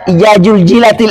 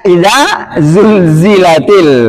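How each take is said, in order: First: The letter is sounded like an English j. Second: The letter is sounded like an English z. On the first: The speaker calls it wrong. "jangan dibaca ja" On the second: The speaker calls it right.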